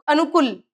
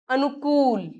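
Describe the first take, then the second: First: अनुकूल with a short, clipped u in कू; "anukul", no long oo; short-vowel mispronunciation. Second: अनुकूल with कू stretched to "kool"; teacher's drawn-out "anukooool"; long ū. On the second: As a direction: hold the oo in अनुकूल. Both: Shown as a demonstration. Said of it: "ऊ की मात्रा की अशुद्धियां".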